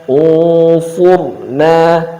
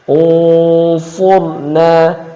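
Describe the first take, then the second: Both takes have the same delivery.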